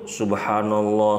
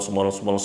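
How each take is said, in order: First: It is said slowly and calmly. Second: It is said very fast, rushed.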